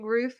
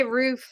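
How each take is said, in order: First: Roof with a short vowel, almost ruff; other roof. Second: Roof with a long oo; Philly roof. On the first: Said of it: "you say roof". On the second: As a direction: say roof like food. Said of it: "we say roof". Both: Shown as a demonstration.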